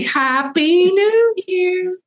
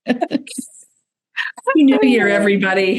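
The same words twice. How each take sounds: First: Very high, drawn-out whoop of a greeting; climbing, stretched party cheer; celebratory cheer. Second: Celebratory, slow start dropping to usual pitch; festive greeting. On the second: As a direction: stretch out a cheery New Year greeting. Host greets listeners for New Year. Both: Real, not acted.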